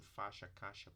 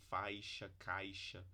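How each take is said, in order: First: Faixa and caixa said as faxa, caxa with no i glide; monophthong. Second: Faixa and caixa said with a clear ai glide; with diphthong. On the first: Teacher showing everyday Brazilian speech, plain monophthong. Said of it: "com monotongo". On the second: Teacher showing the careful diphthong to students, clearly. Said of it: "a maior parte do Brasil vai falar". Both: Shown as a demonstration.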